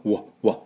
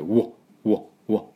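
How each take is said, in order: First: うわ with a built-up start; held-back w. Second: うわ with rounded, held-back start; muffled w. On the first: Teacher showing pent w sound, built-up start. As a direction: swell into うわ. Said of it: "この溜まった感じの". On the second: Teacher modelling the English w for learners, muffled. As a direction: build up into うわ. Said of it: "こもった、溜まった感じ". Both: Shown as a demonstration.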